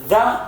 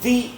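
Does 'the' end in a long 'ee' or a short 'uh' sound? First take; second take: uh; ee. First: The word ends in a short weak uh sound. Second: The word ends in a long ee sound. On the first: It comes before a word starting with a consonant sound. "The is used with a consonant sound" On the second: It comes before a word starting with a vowel sound. "the is used with a vowel sound"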